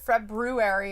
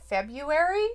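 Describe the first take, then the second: First: The first R after 'Feb' is clearly pronounced. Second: The first R after 'Feb' is left silent. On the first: "you gotta pronounce it February in order to spell it correctly" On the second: "Because everybody doesn't pronounce it February. They're like"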